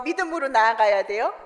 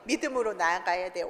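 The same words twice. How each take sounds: First: 믿음으로 lifted, 돼요 rising at the end as a question. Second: 믿음으로 nuanced lower and softer, 돼요 falling as a settled answer. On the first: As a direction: ask 믿음으로 나아가야 돼요 with a questioning rise. (믿음으로 나아가야 돼요를 올리는 억양으로 묻기) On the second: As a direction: answer 믿음으로 나아가야 돼요 with a low, firm fall. (믿음으로 나아가야 돼요를 내려가는 억양으로 답하기) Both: Shown as a demonstration. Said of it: "그때는 어떻게 하는 거예요?".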